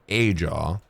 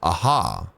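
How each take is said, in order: First: The middle consonant is a J sound. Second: The middle consonant is a soft H sound. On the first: The speaker calls it wrong. "I've been saying Ajaw" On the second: The speaker calls it right. "You don't say the J"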